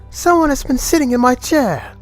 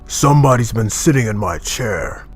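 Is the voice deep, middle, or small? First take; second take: middle; deep. First: It is said in a medium voice. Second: It is said in a deep, gruff voice.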